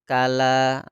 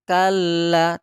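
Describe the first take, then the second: First: The middle l is short and not pressed. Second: The middle l is pressed and held long. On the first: The speaker calls it wrong. "tidak boleh kita baca kala, nanti itu eh, keliru" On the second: The speaker calls it right. "Kalla itu kita tekan"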